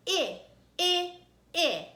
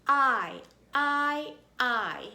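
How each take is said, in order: First: I said as short "ih" in itch, loud; short I sound. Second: I said loud as "eye", like ice; long I sound. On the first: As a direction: punch out I like the start of itch. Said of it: "when it's a short sound". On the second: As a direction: belt out I as the letter name. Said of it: "I'll tell you what it says". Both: Shown as a demonstration.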